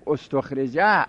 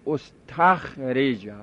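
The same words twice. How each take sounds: First: استخرجه said ostokhrija, with o after the t; ostokhrija, short o in the second syllable of استخرجه; third letter with damma. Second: استخرجه said ostakhrija, with a after the t; ostakhrija, short a in the second syllable of استخرجه; third letter without damma. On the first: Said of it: "اگر سیومی رو ضمه ندیم". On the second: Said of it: "سمی رو ضمه ندیم". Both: Shown as a demonstration.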